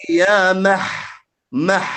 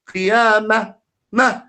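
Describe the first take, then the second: First: "Ya mah, mah" ending in a deep throat h; overdone deep ha. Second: "qiyamah" said as qiyama, ending on bare ma; dropped final ha. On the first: Shown as a demonstration. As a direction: push a heavy throaty h out after each "mah". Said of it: "a very deep ha". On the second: Retold or imitated. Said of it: "No, you have to pronounce".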